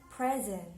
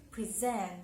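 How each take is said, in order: First: "present" said PREZ-ent, as a noun; stress on first syllable. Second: "present" said pre-ZENT, as a verb; weight the last syllable of "present"; stress on second syllable. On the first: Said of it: "if it's a noun". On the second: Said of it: "If it's a verb". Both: Shown as a demonstration.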